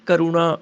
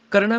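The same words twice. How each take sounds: First: ਕਰੁਣਾ as 'ka-ru-naa'; corrected 'u' vowel. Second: ਕਰਨਾ as 'karnaa'; wrong vowel. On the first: Teacher correcting, ਕਰੁਣਾ with 'u' after r. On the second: Teacher showing the mistake, ਕਰਨਾ without 'u'. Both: Shown as a demonstration. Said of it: "ਰਾਰੇ ਨੂੰ ਔਂਕੜ ਹੈ".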